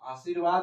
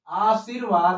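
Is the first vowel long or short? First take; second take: short; long. First: The first vowel is short. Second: The first vowel is long. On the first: The speaker calls it wrong. "आशीर्वाद नहीं होता है" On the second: The speaker calls it right. "आशीर्वाद होता है"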